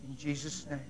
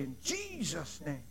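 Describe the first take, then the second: First: It is said in a plain, natural voice. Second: It is said in a put-on, exaggerated voice. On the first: It is said sincerely. The speaker calls it right. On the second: It tries to sound spiritual. The speaker calls it wrong. "Don't put a voice on there. Don't say"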